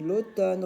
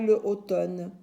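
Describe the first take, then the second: First: The article is elided and joined to the vowel. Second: The article is a separate syllable before the vowel. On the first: The speaker calls it right. "C'est l'automne" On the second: The speaker calls it wrong. "On ne dit pas le automne"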